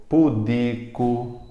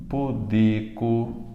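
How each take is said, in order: No difference in how they are said.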